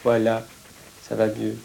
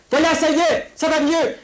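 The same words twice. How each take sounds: First: Low, soft reassurance; soothing. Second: Very high, yelled encouragement; shouted reassurance. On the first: Comforting the child after the shouting, soothing. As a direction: drop down low and calm the child. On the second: Telling the child it is better, shouting. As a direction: shout comfort as if to a frightened child. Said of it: "je ne crie que pour te faire". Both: Acted.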